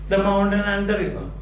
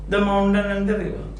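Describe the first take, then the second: The two takes are said the same way.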